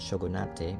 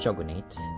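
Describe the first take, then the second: First: The word is pronounced like a Japanese word. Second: The word is pronounced as an English word. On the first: The speaker calls it wrong. "not shogunate" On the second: The speaker calls it right. "it's pronounced shogunate"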